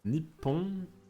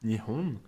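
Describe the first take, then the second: First: The middle sound is a doubled p. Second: The middle sound is a soft h. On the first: This form is favoured by journalists and conservative speakers. "une autre prononciation de ces deux kanji qui est Nippon" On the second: This is the usual everyday name for Japan. "comment on disait le nom du Japon en japonais"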